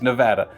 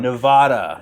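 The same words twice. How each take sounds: First: The name is said in a plain way. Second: The name is said in a posh way.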